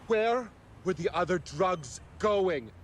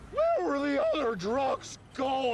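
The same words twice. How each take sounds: First: It is said in a lower, non-squeaky voice. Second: It is said in a high, squeaky voice.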